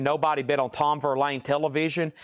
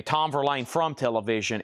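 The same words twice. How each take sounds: First: Said in the usual way. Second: Correcting himself, leaning on "from"; stress on from. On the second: Shown as a demonstration. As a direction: give "from" a light extra push. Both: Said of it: "Or, excuse me".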